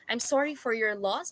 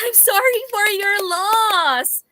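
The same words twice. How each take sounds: First: It is said in a sad, sincere tone. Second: It is said in a happy, laughing tone.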